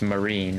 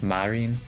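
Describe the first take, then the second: First: The name is pronounced the English way. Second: The name is pronounced the Japanese way. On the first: "English say Marine" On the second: "Marine in like Japanese pronunciation"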